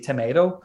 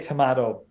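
First: Tomato is said in a North American accent. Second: Tomato is said in a non-North American accent. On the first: This is how people in North America say it. "in North America, they might say tomato" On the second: This is how the speaker's own community says it. "we would say tomato"

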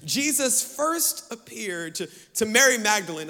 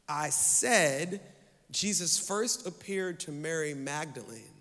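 First: It is spoken fast and mumbled. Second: It is spoken slowly and clearly. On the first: The detail slips past unnoticed. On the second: The detail is made to stand out.

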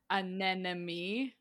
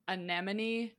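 First: The second consonant is an n sound. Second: The second consonant is an m sound. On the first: The speaker calls it wrong. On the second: The speaker calls it right.

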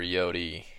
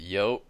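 First: The word ends on a vowel sound. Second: The word ends on a consonant sound. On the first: "Is it yote or yodi?" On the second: "Is it yote or yodi?"

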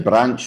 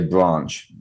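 First: It has a short Midlands 'a' vowel. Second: It has a long southern 'ah' vowel.

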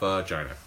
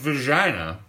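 First: The words are pronounced clearly and distinctly. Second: The words are slurred together into one blur. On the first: The speaker calls it right. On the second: The speaker calls it wrong.

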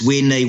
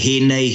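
First: It is said another region's way, starting with w. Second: It is said the Taranaki way, starting with h.

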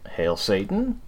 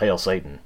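First: The voice rises at the end like a question. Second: The voice falls at the end like a statement. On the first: The speaker calls it right. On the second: The speaker calls it wrong.

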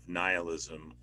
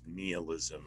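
First: The first syllable sounds like 'Nile'. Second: The first syllable sounds like 'Neil'. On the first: The speaker calls it right. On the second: The speaker calls it wrong.

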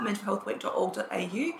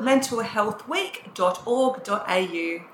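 First: It is said at normal speed. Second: It is said slowly and deliberately.

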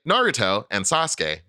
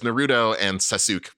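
First: The names are said with a Japanese-style pronunciation. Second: The names are said with an English-style pronunciation. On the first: The speaker calls it right. "that's perfectly correct" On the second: The speaker calls it wrong. "we all recognize that that's wrong"

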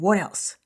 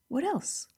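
First: It is asked in a demanding, impatient tone. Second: It is asked in a curious, open tone.

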